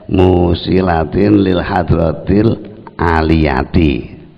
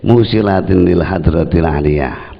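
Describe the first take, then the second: First: The last word ends with an added ti syllable. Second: The last word ends on a bare consonant. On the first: It is recited this way when chanted as verse. "dibaca kasroh" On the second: It is recited this way in the mujahadah. "sukun yang akhir"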